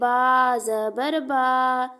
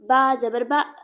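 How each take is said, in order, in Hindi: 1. स्वर को खींचा गया है और देर तक रोका गया है। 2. स्वर को एक झटके से अचानक काट दिया गया है। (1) "ना खींच के पढ़ना है" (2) "ना झटका दे के पढ़ना है"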